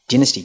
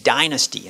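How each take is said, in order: First: It is said in a non-American English pronunciation. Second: It is said in an American English pronunciation.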